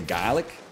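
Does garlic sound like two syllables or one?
one syllable. It is said Chicago style, dropping a syllable.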